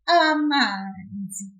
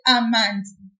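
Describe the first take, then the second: First: The syllable 'ma' is drawn out longer. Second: The syllable 'ma' is short and clipped. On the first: The speaker calls it right. "We want to say" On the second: The speaker calls it wrong. "If I didn't pull it, I would have said"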